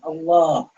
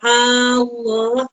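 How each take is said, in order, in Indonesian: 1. Vokal tengah dibaca panjang. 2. Vokal pertama dibaca panjang. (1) "Yaitu ketika Allah itu yang panjang" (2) "Hamzahnya tidak boleh dikatakan Allah. Tidak boleh"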